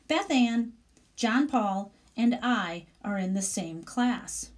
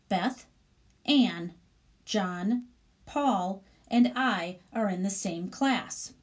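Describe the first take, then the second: First: The names run together in pairs without pausing. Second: There is a pause after every single name. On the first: Three people are in the class. "now there are only three people mentioned in that sentence" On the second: Five people are in the class. "I would read that like"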